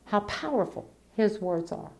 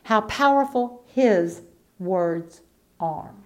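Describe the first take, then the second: First: Softer echo of the same phrase; hushed repeat. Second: Powerful stretched and weighted, slow; emphasis on powerful. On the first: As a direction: let it fall to a near hush. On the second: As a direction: lean hard on "powerful", draw the phrase out slowly. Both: Shown as a demonstration.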